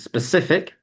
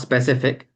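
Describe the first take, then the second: First: The opening s is a clear blown hiss. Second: The opening s sound is not clearly made. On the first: The speaker calls it right. "to blow the air a little bit from your mouth" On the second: The speaker calls it wrong. "not specific"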